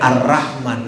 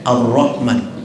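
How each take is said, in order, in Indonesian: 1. Bunyi r-nya ringan dan tipis. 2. Bunyi r-nya berat dan tebal. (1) "gak boleh" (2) "ro tafkhim, tebal"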